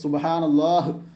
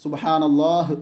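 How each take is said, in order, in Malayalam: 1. അവസാനത്തെ h ശബ്ദം വ്യക്തമായി ഉച്ചരിക്കുന്നു. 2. അവസാനത്തെ h ശബ്ദം വ്യക്തമായി ഉച്ചരിക്കുന്നു.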